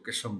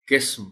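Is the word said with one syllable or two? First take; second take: two; one. First: An extra vowel splits it into two syllables. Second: It is said as a single closed syllable. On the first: The speaker calls it wrong. "लोग इसको किस्म बोलते हैं" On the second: The speaker calls it right. "किस्म पढ़ा जाना चाहिए"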